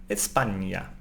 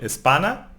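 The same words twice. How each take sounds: First: España with the ñ as ny; correct ñ sound. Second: Espana with a plain n, no y glide; mispronounced Espana, ordinary n in place of ñ; wrong plain N. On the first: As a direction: say España as "es-PAN-ya". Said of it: "pronounced like ñ". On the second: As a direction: say Espana as "es-PA-na", ñ flattened to n. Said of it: "It's not Espana". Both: Shown as a demonstration.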